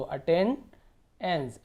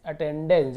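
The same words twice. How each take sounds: First: "attendance" very slowly, pausing before the final एंस; split at suffix. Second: Said in the usual way. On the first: Shown as a demonstration. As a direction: break "attendance" to set off the ending. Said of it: "या फिर एंस पढ़ सकते हो". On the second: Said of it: "जब इसे जोड़ेंगे".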